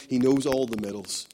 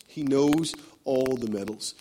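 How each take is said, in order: First: Said in the usual way. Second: Each word laid down slowly; slow it right down and weigh it; slower emphatic repeat. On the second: Shown as a demonstration. Preacher repeating the line slowly for the congregation.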